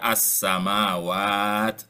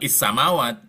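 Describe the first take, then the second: First: The word begins with an 'a' vowel. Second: The word begins with an 'i' vowel. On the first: The speaker calls it right. "dibaca as-samawat gitu" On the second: The speaker calls it wrong. "bukan is-samawat"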